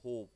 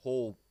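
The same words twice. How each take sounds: First: Said in the usual way. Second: होप said loudly with the ओ held long; stretched O in hope. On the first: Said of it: "ध्यान देखिए, होप". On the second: Shown as a demonstration. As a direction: drag the ओ in होप. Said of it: "ओ पे ज़्यादा stress आ रहा है".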